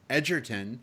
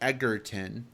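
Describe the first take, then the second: First: The first syllable does not sound like 'egg'. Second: The first syllable sounds like 'egg'. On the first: The speaker calls it right. "we put that emphasis" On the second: The speaker calls it wrong. "so many people say Egerton, and it might be because he played Eggsy"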